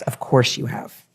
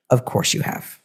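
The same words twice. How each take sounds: First: Said in the usual way. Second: A soft, breathy whisper: "Of course you have"; whispered reassurance. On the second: Real, not acted. Reader to Virgo risings, reassuring in a whisper. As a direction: whisper it close, like a secret comfort.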